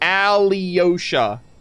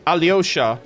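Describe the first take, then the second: First: The syllables are said separately, broken apart. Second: The syllables run together quickly in one go. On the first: The speaker calls it wrong. "I like break it apart" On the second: The speaker calls it right. "like swiftly"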